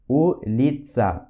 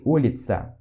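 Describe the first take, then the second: First: Улица slowly, split as U-LI-TSA; syllable by syllable. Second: Said in the usual way. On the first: Shown as a demonstration. Teacher modelling the Russian word for street, улица syllable by syllable. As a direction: draw out each syllable of улица. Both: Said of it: "o U de улица".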